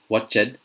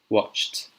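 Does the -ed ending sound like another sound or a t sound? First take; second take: another sound; t sound. First: The ending does not sound like a t. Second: The ending sounds like a voiceless t. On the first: The speaker calls it wrong. "I've heard it being pronounced" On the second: The speaker calls it right. "this one is pronounced"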